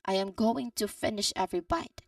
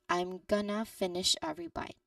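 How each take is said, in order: First: Every word is said fully, with 'going to'. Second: Words are contracted, with 'gonna' instead. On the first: "the full sentence" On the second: "It's elided form"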